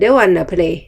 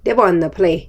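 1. 'want to' ย่อเหลือคำเดียวคือ wanna 2. 'want to' ย่อเหลือคำเดียวคือ wanna

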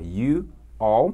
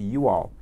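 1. As duas palavras são pronunciadas separadamente, sem ligação. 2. As duas palavras são unidas com um som de w deslizante. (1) "Claro que você pode falar you all" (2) "Mas você vai ouvir bastante you all"

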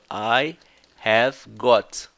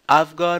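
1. I have é dito como duas palavras completas. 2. I have é contraído em uma sílaba rápida. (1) "a gente tá esperando isso aqui" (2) "ela falou isso rápido"

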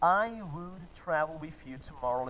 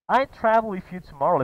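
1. A palavra 'would' é pronunciada por completo. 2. O 'would' é reduzido a um d quase inaudível. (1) "É como se ele estivesse falando assim" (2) "às vezes no som, nem dá pra perceber"

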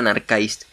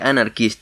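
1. La última sílaba rima con 'Christ'. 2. La última sílaba termina como 'list'. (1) "no Anarchist" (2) "Anarchist se pronuncia Anarchist"

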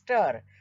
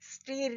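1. स्वर 'fur' मधील 'ur' सारखा वाटतो. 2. स्वर 'steer' मधील 'ee' सारखा वाटतो. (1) "त्याचा STIR चा उच्चार आहे स्टर" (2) "स्टीर नाही"

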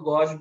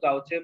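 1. यह शब्द 'sh' की आवाज़ पर खत्म होता है। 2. यह शब्द 'chay' की आवाज़ पर खत्म होता है। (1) "अच्छे अंग्रेजी में बोलना चाहो तो गौश बोलो" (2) "अपनी गाउटी लैंग्वेज में बोलना है तो गाउचे बोलो"

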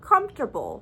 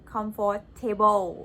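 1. การเน้นเสียงตกที่พยางค์แรก 2. การเน้นเสียงตกที่ส่วน 'table' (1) "มันจะออกเสียงว่า" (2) "อันนี้ก็คือไปออก stress ตรงคำว่า table"

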